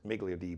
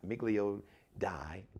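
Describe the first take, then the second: First: The last word rhymes with 'see'. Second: The last word rhymes with 'eye'. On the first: The speaker calls it right. "but it's Miglio D" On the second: The speaker calls it wrong. "it's spelled Die"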